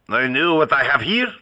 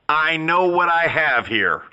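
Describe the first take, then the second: First: It is said in a put-on French accent. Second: It is said in the speaker's ordinary accent.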